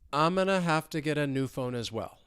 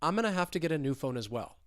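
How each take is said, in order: First: The sentence is spoken slowly. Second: The sentence is spoken at normal, faster speed. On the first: "So slowly" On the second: "let's speed it up"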